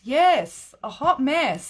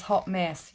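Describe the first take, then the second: First: Much louder and higher, gleeful; excited agreement. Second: Said in the usual way. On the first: Real, not acted. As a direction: belt it back in delighted agreement. Loudly agreeing with the comment.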